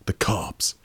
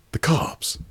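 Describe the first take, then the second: First: Breathy hush, as if someone might overhear; whispered warning. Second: Squeaky alarm. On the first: Paranoid man on the phone whispering a warning. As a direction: drop to a secret whisper on "The cops.". Hushed warning about the cops. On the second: Paranoid caller squeaks out his fear in alarm. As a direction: jump way up high on "The cops.", tight and voiceless. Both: Acted.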